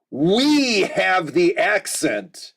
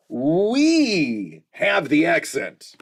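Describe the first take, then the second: First: Slow, leaning hard on "We"; "We have the accent" with "We" stressed and slow. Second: Slow, punching "We" home; "We have the accent", slow with heavy "We"; stress on we again. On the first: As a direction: make "We" the point, drawn out. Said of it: "His people invented the language". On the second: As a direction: land "We" hard, slower still. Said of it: "they're pronouncing it right". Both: Real, not acted.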